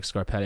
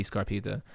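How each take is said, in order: First: Scarpetta, middle vowel as in "pet"; surname with -etta ending. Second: Scarpita, stressed middle vowel as in "Pete"; surname with -ita ending. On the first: Host unsure of his surname, Scarpetta with short e. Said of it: "don't even know if my last name is, sounds like". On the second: Host offering another surname reading, Scarpita with long ee. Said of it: "It could be Scarpita". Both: Shown as a demonstration.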